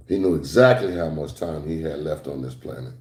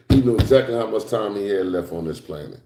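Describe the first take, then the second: First: Softer, lower restatement; quiet emphatic repeat. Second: Said in the usual way. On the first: Shown as a demonstration. Preacher repeating to the congregation, softer and lower. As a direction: let "exactly" sink in quietly. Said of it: "repeated softer".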